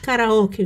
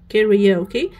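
First: The second vowel sounds like 'ah'. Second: The second vowel sounds like 'ee'. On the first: The speaker calls it wrong. "ما نقولوش" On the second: The speaker calls it right. "نقولو"

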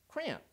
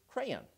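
First: It is squeezed into a single syllable. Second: Two syllables, the second with an 'ay' sound. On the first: "Or is it a one-syllable word" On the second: "two-syllable word in which the second syllable is pronounced with a soft A sound"

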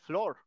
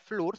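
First: The vowel is said as an 'or' sound. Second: The vowel is said as a long 'oo' sound. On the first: The speaker calls it right. "se pronuncia Flor" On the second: The speaker calls it wrong. "se debería pronunciar Flur"

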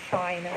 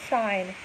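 The two takes are said the same way.

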